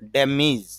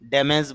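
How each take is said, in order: First: The second syllable has an 'i' vowel. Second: The second syllable has an 'e' vowel. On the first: The speaker calls it right. "এই জন্য উচ্চারণ করতে হবে ড্যামিজ" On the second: The speaker calls it wrong. "যদিও আমরা এই উচ্চারণটা ড্যামেজ বলি"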